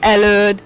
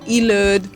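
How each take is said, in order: First: The first vowel is an 'eh' sound. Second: The first vowel is an 'ee' sound. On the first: This is the native Hungarian pronunciation. "in Hungarian language we say E for this letter. So előd" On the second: This is how an English speaker would read it. "I think in English, how would you pronounce it? I, ilöd, maybe, because I is the first letter"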